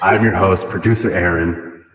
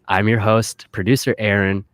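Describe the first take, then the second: First: The voice sounds changed by an added voice effect. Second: The voice sounds natural, with no effect applied. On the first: "We'll change the voice" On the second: "I don't understand why you're not using the voice"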